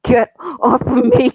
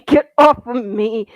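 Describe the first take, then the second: First: High, loud, slow panicked yell; desperate shout. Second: Loud struggling shout, slightly less high. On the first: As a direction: scream it while struggling free. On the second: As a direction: keep yelling while squirming. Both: Acted. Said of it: "squirming and growling".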